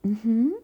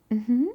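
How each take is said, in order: Both takes have the same delivery.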